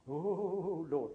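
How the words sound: It is said fervently, like an emotional exclamation. The prayer is meant with revivalist passion.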